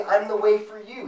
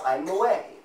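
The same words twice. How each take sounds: First: "I'm the way for you" as a mock relativist line; wrong version. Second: "I'm the way", falling, final weight on "way"; firm declaration. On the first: Preacher mocks the misquote with lifted stress on "way". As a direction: stress on "way", higher and louder, "for you" tacked on. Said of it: "He didn't say". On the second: Preacher gives the true saying, firm and falling. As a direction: state "I'm the way" with no hedge. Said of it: "He said". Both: Shown as a demonstration.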